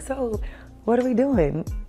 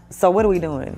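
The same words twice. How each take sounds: First: It is asked in a light, unthreatening tone. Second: It is asked in a heavy, confrontational tone.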